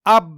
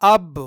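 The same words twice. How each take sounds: First: Said in the usual way. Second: اب with an echoing released ب; اب with a slight rebound; with qalqalah. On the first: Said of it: "بنا قلقلہ کے". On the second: Shown as a demonstration. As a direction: bounce the ب of اب. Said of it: "قلقلہ کے ساتھ".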